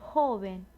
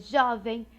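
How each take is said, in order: First: The O vowel is closed. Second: The O vowel is open. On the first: The speaker calls it right. "o som é fechado" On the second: The speaker calls it wrong. "não é jovem"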